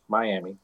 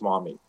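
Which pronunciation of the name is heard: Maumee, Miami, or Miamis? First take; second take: Miami; Maumee. First: The name is said the English way, my-AM-ee. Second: The name is said the French-derived way, maw-MEE. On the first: This is the English version of the name. "One is the mispronunciation in English" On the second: This is the French version of the name. "the other is the mispronunciation in French"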